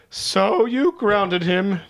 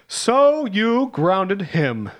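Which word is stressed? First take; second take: grounded; him. First: The word him is not stressed. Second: The word him is stressed.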